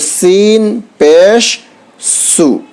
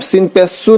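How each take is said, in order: First: There is a short pause before 'su'. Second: It is said straight through without a pause. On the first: The speaker calls it right. "सीन पेश, थोड़ा सा रुक जाए, फिर उसका सु बोले" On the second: The speaker calls it wrong. "अब सीन पेश सु नहीं बोलना"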